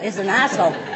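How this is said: The h is dropped, so it sounds like asshole.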